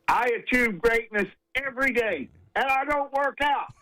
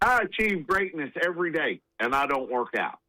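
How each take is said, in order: First: It is said emphatically, with strong conviction. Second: It is said casually, as an offhand remark.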